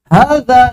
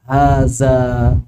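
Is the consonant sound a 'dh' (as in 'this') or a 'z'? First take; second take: dh; z. First: The consonant is a soft 'dh' sound. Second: The consonant is a buzzing 'z' sound. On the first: The speaker calls it right. "Zal jadi zai" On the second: The speaker calls it wrong. "Zal jadi zai, ... Ini keliru"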